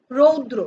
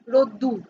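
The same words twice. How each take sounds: First: Said in the usual way. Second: রোদ্দুর with a doubled d and final -ur; broken-down everyday রোদ্দুর, "dr" opened into "ddur"; colloquial pronunciation. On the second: Shown as a demonstration. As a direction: say রোদ্দুর as "rod-dur", as in everyday speech. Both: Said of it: "আমরা কি বলি?".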